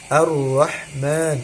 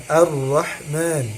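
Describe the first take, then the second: No difference in how they are said.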